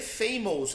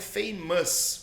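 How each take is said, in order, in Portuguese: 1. A última sílaba tem uma vogal 'ou' completa. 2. A última sílaba tem uma vogal 'uh' reduzida. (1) "ele vai colocar aquele O, aquele U, ele vai falar ou" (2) "na realidade o som dessa palavra é famous"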